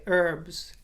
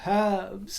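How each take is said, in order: First: The h at the start is silent. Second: The h at the start is pronounced.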